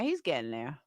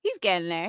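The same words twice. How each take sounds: First: Much lower, much softer repeat; quiet aside to herself; under breath. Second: Said in the usual way. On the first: Real, not acted. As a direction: trail off to yourself.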